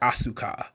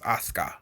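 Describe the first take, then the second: First: The middle u vowel is clearly pronounced. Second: The middle u vowel is dropped entirely. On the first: The speaker calls it wrong. "if we try to pronounce things phonetically" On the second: The speaker calls it right. "it's actually just pronounced Asuka because the U is silent"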